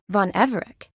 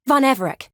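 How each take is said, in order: First: EVEREC lifted as a question. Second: Gasp, then higher, louder exclamation; startled recognition. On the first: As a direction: ask "Von Everec?" with a rising end. Puzzled query of a name. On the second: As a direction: blurt out the name in sudden realisation. Sudden recognition of the name. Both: Acted.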